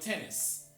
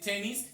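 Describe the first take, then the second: First: The last syllable has a weak, reduced vowel. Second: The last syllable has a full, clear vowel. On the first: The speaker calls it right. "sino tenis" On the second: The speaker calls it wrong. "no debemos decir tenis"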